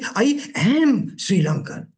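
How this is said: The stress falls on the word am. "I'm enunciating am"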